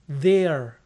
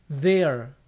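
The two takes are said the same way.

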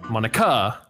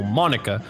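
First: The stress is on the last syllable. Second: The stress is on the first syllable. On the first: "Or maybe on the A" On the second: "I gotta keep the accent on the O"

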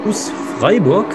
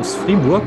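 First: Freiburg is said with a standard German pronunciation. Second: Freiburg is said with a Baden dialect pronunciation.

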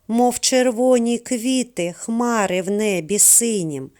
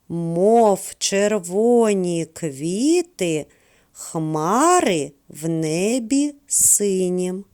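First: The line is recited at a normal pace. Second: The line is recited at a slower pace.

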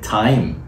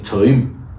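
First: It is said in a Received Pronunciation accent. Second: It is said in an Original Pronunciation accent. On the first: "In RP we say time" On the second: "but Shadi is saying time"

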